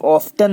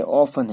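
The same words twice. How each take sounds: First: ऑफ्टन as "off-tun"; wrong form ऑफ्टन, louder, T pronounced; sounded T. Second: ऑफन as "off-un"; right form ऑफन with no T; silent T. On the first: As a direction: put a clear T after the F in ऑफ्टन. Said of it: "ऑफ्टन नहीं है". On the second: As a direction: run F straight into the vowel in ऑफन. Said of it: "टी silent पूरा में". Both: Shown as a demonstration.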